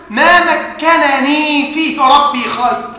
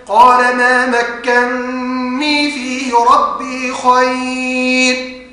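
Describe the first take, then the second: First: Two separate noons in مكنني, each with its vowel; original unmerged form. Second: Slow chanted recitation, long merged noon in مكني; idgham recitation. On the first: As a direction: slowly sound out ma-ka-na-nee in مكنني. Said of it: "أصل الكلمة". (إظهار النونين في مكنني) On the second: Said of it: "أضغم النون الأولى في الثانية فيقرأ هكذا". (ترتيل بإدغام النون في مكني) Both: Shown as a demonstration.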